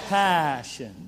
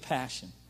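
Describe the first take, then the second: First: The word is said with energy, drawn out. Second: The word is said flatly, without much energy.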